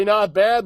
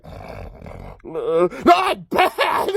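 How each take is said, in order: First: Said in the usual way. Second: Hammed-up incredulous commentator squawk; imitating stunned announcers. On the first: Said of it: "whenever you hear Mister Wilhelm say". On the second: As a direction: shoot the pitch way up on the echo. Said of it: "the two announcers like".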